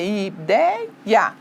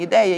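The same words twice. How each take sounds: First: "ideia" broken into separate syllables. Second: Said in the usual way. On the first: Shown as a demonstration. Teacher separating the little word, syllabified "ideia". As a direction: stretch "ideia" out, one syllable after another. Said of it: "quando eu faço a separação". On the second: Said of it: "a separação da palavrinha ideia".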